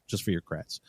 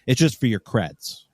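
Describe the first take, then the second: First: Softer, lower aside of "just for your creds"; trailing quiet repeat of "just for your creds"; quiet echo. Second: Said in the usual way. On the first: Real, not acted.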